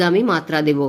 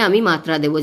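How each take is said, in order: Both takes have the same delivery.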